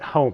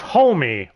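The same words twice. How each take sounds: First: The name is said without an L sound. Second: The name is said with an L sound.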